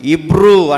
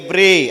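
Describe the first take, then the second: First: It starts with 'i' and ends in 'oo'. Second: It starts with 'e' and ends in 'ee'. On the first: This is the English reading. "ఇంగ్లీష్లో చదివితే ఇబ్రూ అంటారు" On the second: This is the Telugu reading. "మన తెలుగులో చదువుతున్నానికి ఎబ్రీ అంటారు"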